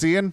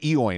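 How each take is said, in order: First: The name is said like 'Ian'. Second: The name is said with an 'o' sound. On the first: The speaker calls it right. "It's Ian?" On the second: The speaker calls it wrong. "I always want to say Eoin"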